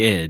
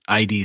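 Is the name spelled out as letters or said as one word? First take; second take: one word; letters. First: It is said as one short word. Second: It is spelled out as two separate letters. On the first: The speaker calls it right. "it should be id" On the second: The speaker calls it wrong. "references I D Software, and I'm like, no"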